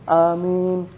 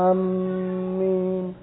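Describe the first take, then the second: First: The m sound is short and single. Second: The m sound is held long and doubled. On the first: The speaker calls it right. "tidak ada tasydid" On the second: The speaker calls it wrong. "Ada khata"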